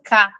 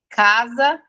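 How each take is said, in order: First: Only the first syllable of the word is said. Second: Both syllables of the word are said. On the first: The speaker calls it wrong. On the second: The speaker calls it right.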